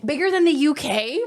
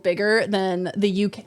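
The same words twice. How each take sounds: First: Incredulous rising question; disbelief, voice lifting on "the"; surprised. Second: Said in the usual way. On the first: Real, not acted.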